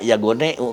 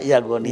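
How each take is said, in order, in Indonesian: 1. Kata ini berakhir dengan vokal 'eu' khas Sunda. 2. Kata ini berakhir dengan vokal 'i' yang jelas. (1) "Karena orang di Sunda Yagoneu kata gitu ya" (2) "Jadi yang benar ada Yagoni"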